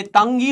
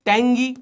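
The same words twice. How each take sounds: First: "तंगी" with a short uh in the first syllable; mock logical pronunciation. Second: "टेंगी" with an e vowel, rhyming with डेंगी; dengue-style pronunciation. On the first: Teacher mocking English spelling logic, "तंगी" with uh. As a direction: say "तंगी" as tung plus gee. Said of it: "तो ये तंगी होना चाहिए". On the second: Teacher reading tongue like dengue, "टेंगी" with e. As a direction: say "टेंगी" as teng plus gee. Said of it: "या तो ये टेंगी होना चाहिए". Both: Shown as a demonstration.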